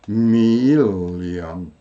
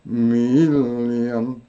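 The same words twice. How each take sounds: The two takes are said the same way.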